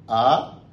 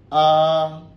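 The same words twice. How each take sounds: First: It is said with the second tone. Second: It is said with the first tone. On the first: "Le deuxième, ça va donner A" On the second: "Premier ton"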